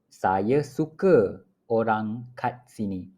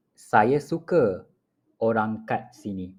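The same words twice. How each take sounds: The two takes are said the same way.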